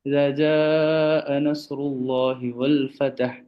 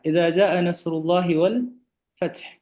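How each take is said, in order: First: The last word has a vowel between t and h. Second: The last word has no vowel between t and h. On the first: The speaker calls it wrong. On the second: The speaker calls it right.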